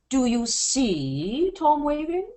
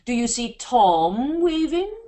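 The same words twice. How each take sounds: First: The stress falls on the word see. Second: The stress falls on the word Tom. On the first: "Now we're going to change the operative to the word see" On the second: "And if we change it to Tom"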